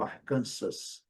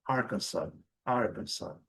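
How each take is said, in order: First: Arkansas as ar-KAN-sas, final S sounded; Brazilian pronunciation. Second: Arkansas as AR-kan-saw; native English pronunciation. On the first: Teacher says where Brazilians can go, Portuguese-style Arkansas. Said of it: "Lá eles não vão para o Arkansas". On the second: Teacher shows where Americans go, English-style Arkansas. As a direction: say Arkansas with stress up front and silent final S. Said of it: "eles vão para". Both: Shown as a demonstration.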